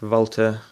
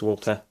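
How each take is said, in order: First: The name begins with a V sound. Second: The name begins with a W sound. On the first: The speaker calls it right. "the correct pronunciation of what a lot of people say Walther is Volta" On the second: The speaker calls it wrong. "a lot of people just say Walter because that's kind of the English translation"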